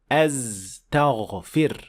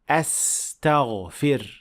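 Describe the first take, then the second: First: The second consonant is a 'z' sound. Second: The second consonant is a clear 's' sound. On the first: The speaker calls it wrong. "saying astaghfir using z" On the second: The speaker calls it right. "it should be a clear sin"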